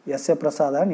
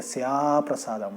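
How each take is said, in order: First: The final 'a' of yasya is short. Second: The final 'a' of yasya is drawn out. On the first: By his grace one attains no progress. The speaker calls it wrong. "हम लोग यस्य प्रसाद बोल देते हैं तो पूरा उल्टा हो जाता है उसका अर्थ" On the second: Without his grace one attains no progress. The speaker calls it right. "उसको थोड़ा खींचना चाहिए"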